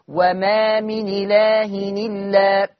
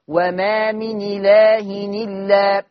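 No difference in how they are said.

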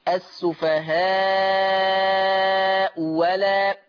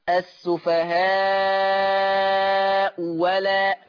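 Both takes have the same delivery.

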